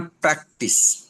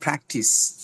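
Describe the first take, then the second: First: Practice with a tight Bengali প, no puff; slow practice, airless P; unaspirated P. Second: Practice with P puffed like ফ; slow practice, air released through both lips; aspirated P. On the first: Teacher showing what to avoid, unaspirated P. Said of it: "Not practice". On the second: Teacher giving the corrected word, aspirated P. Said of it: "এটা হবে ফ". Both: Shown as a demonstration.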